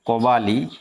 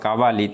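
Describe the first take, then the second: First: The first vowel is the short অ sound. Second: The first vowel is the long আ sound.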